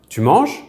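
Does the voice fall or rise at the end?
rise. The voice rises at the end. It asks whether someone is doing it. "or a question"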